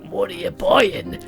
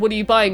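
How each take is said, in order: First: It is said in an exaggerated put-on character voice. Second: It is said without the exaggerated character voice. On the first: The speaker calls it wrong. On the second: The speaker calls it right.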